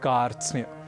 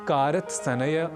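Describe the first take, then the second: First: The five consonants are joined without extra vowels. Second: Two extra vowels split the consonant cluster. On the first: The speaker calls it right. "हमें कहना है कार्त्स्न्य" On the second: The speaker calls it wrong. "इसे कारत्सनय, कारत्स्नय आदि न कहकर"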